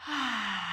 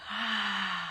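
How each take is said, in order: First: Breathy unvoiced "Ah" on the out breath; just breathe the "Ah" out; whispered sigh. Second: Voiced sigh. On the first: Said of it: "and say". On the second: Teacher shows students the releasing sigh, voiced. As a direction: open voiced "Ah" on the out breath. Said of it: "And then say". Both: Shown as a demonstration.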